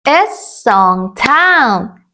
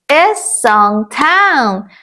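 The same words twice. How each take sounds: The two takes are said the same way.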